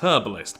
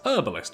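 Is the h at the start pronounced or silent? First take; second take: pronounced; silent. First: The word begins with a pronounced h sound. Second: The word begins with a silent h. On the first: "In the U K" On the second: "with the uh, H not being pronounced"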